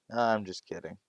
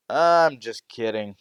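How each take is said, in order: First: Said in the usual way. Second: Draws it out loudly, teasing the class; loud, slow joking teacher. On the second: Acted. Teacher teasing the class with a slow, loud joke. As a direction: announce it slowly and loudly to the room.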